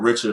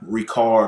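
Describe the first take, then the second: First: It is said with English sounds, a ch sound. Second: It is said with French sounds, a hard c. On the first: This is the everyday English way to say it. "however you want to pronounce it" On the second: This is how the makers in France say it. "that's how they pronounce it"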